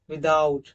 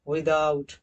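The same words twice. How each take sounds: The two takes are said the same way.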